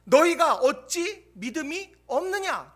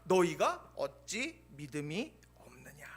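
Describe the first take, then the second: First: Stern rebuke. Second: Whispered rebuke. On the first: Pastor contrasting two ways of saying Jesus's rebuke, slow and stern. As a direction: drive it home slowly. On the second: Pastor giving the same rebuke differently, a slow whisper. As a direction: whisper 너희가 어찌 믿음이 없느냐, low and slow. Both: Acted. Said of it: "같은 말씀을 다르게 표현하는".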